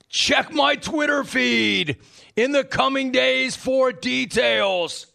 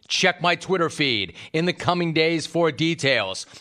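First: It is read in a put-on, imitated voice. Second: It is read in the speaker's own natural voice. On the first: The speaker calls it right. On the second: The speaker calls it wrong.

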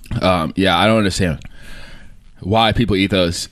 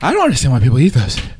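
First: The voice is at a normal pitch. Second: The voice is strained and very high-pitched. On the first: The speaker calls it right. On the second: The speaker calls it wrong.

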